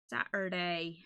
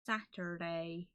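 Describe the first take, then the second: First: Said in the usual way. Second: "Saturday" slow as "ætə˞deɪ", leading S dropped, R sounded; drawn-out Saturday. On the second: Shown as a demonstration. Streamer showing her own odd way to say Saturday. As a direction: stretch "Saturday" and drop the S. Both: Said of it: "I don't think anyone else pronounces it Saturday".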